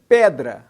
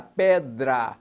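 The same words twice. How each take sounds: First: Said in the usual way. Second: "pedra" in two parts, pe-dra; split into syllables. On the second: Shown as a demonstration. Teacher showing where the syllables divide, "pedra" said syllable by syllable. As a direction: separate "pedra" as pe, then dra. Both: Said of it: "separando a sílaba".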